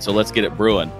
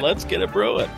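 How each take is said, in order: First: It is said in an ordinary speaking voice. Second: It is said in a cheesy radio announcer voice. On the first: The speaker calls it wrong. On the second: The speaker calls it right.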